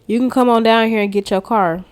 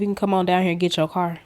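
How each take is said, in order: First: Excited repeat. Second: Said in the usual way. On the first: Real, not acted. Relishing the salesman's news to viewers, excited repeat. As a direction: savour the good news out loud.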